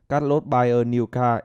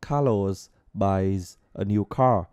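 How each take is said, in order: First: The word-final consonant sounds are dropped. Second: The word-final consonant sounds are clearly pronounced. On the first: The speaker calls it wrong. "mình không hề phát âm âm cuối này" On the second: The speaker calls it right. "khi mình phát âm âm cuối"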